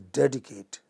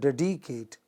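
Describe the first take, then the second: First: The stress falls on the first syllable. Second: The stress falls on a later syllable. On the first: The speaker calls it right. "it is dedicate, you know, initial syllable" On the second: The speaker calls it wrong. "it is not dedicate"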